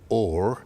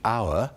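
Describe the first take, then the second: First: The word is said with an 'or' vowel. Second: The word is said with an 'ow' vowel. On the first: This is the older pronunciation. "in the earlier version" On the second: This is the present-day pronunciation. "in modern English"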